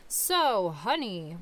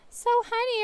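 First: It is said in a deep dad voice. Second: It is said in a mom voice.

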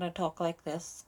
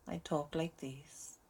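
First: It is spoken in a Northern Irish accent. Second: It is spoken in a Welsh accent. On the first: "if I was in Northern Ireland, I talk like this" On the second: "if I was talking to a Welsh person, I'd talk like this"

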